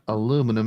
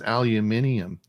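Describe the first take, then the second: First: It is said with four syllables, American style. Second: It is said with five syllables, British style. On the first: The speaker calls it wrong. "It's not aluminum" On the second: The speaker calls it right. "it's the English version"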